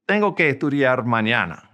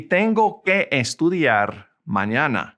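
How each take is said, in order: First: Said in the usual way. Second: Deliberate, carefully spaced Spanish. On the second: Shown as a demonstration. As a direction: draw out "tengo que estudiar", then pause before "mañana". Slow model, then faster repeat.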